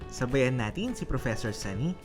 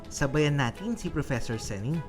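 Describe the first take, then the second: No difference in how they are said.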